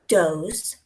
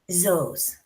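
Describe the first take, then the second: First: The word starts with a d sound. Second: The word starts with a z sound. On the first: "replace that T H with a D" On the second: "or a Z"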